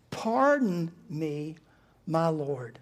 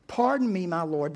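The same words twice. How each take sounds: First: Very slow, spaced-out "Pardon me, my Lord"; measured, halting address to a master; deliberate address. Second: Said in the usual way. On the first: Acted. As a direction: draw out "Pardon" and pause before "my Lord". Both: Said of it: "look how Gideon talks to him".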